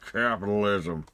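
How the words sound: It is said in a gruff, cigar-smoking tycoon voice. "Said with a big cigar"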